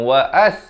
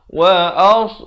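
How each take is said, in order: First: The s sound is light and thin. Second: The s sound is heavy and emphatic. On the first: The speaker calls it wrong. "jangan wa as. Kalau wa as jadi huruf sin" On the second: The speaker calls it right.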